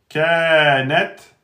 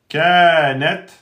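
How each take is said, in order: Both takes have the same delivery.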